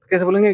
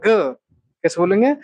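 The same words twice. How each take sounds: First: Said in the usual way. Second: Slow down so the class follows; slow repeat. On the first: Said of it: "अब दोनों को मिलाओ". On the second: Shown as a demonstration. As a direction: question drawn out slowly. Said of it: "गाग". (धीरे धीरे पूछना)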